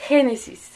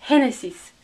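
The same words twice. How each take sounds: No difference in how they are said.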